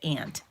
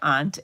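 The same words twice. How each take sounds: First: The word sounds like 'ant', the insect. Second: The word does not sound like 'ant'. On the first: "instead of aunt. Ants are little things that crawl" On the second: "had to be trained to say aunt"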